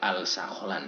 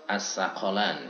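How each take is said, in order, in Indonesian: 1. Bunyi L terucap jelas sebelum S. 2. Bunyi L melebur menjadi bunyi S yang digandakan. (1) "Tidak boleh al-sakholan" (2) "kita harus membaca as-sakholan"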